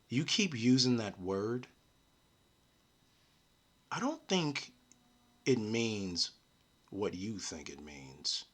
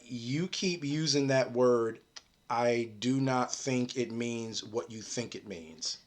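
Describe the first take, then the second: First: The line is read out dramatically. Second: The line is read out plainly.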